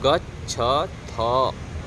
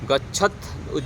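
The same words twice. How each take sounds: First: The word ends with a full a vowel. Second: The word ends on a bare th consonant. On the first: The speaker calls it right. "गच्छथ ऐसे बोलेंगे" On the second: The speaker calls it wrong. "गच्छथ ऐसे नहीं बोलेंगे, गच्छथ बोलेंगे तो थ में हलंत हो जाएगा"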